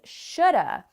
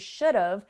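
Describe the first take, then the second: First: Have is reduced to a weak 'uh' vowel. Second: Have is contracted to a short 've' sound. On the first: "what people actually say is shoulda" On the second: "that contracts into should have"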